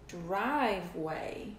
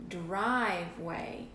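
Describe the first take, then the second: No difference in how they are said.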